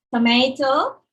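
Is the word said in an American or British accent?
American. It is said in an American accent.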